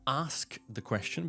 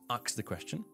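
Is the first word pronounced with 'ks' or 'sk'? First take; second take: sk; ks. First: The first word ends with a clear 'sk'. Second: The first word is said as 'ax'.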